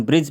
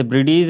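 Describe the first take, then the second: First: ब्रिज as one syllable, "brij"; correct silent-d reading. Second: ब्रिटिश said as two beats, "bri-deez"; wrong spelled-out reading. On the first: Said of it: "इसे हम ब्रिज पढ़ेंगे". (ब्रिज एक ही झटके में, डी silent) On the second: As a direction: sound a separate d and long "ee" in ब्रिटिश. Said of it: "इसे ब्रिटिश नहीं पढ़ेंगे". (ब्रिटिश को "ब्रि-डीज़" जैसे दो हिस्सों में) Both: Shown as a demonstration.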